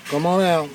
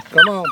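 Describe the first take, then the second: First: Said in the usual way. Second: Tiny high-pitched coax to a puppy; sudden falsetto coaxing call; squeaky high call. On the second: Real, not acted. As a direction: squeak it up high to lure the pup. Calling puppies out of pen.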